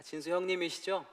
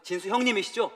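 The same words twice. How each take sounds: First: Said in the usual way. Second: 형님이시죠 asked higher and louder, hurried; an alarmed caller checking who answered; urgent caller. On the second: Retold or imitated. Urgent call from the facility.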